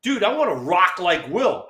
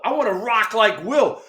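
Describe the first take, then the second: First: Higher, keen plea; lightly voiced eager teammate. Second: Higher, pushing the plea; lightly voiced teammate insisting; more eager repeat. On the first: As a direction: ask like a kid wanting in. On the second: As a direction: beg it again with more fire. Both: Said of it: "Kevin Mitchell goes up to Dusty and goes".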